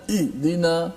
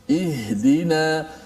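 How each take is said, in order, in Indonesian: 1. Bunyi h ditekan dan hampir tidak terdengar. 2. Bunyi h diucapkan jelas dengan hembusan napas. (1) "jangan ihdina" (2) "lepaskan suara ha, dengar suara tu berjalan keluar"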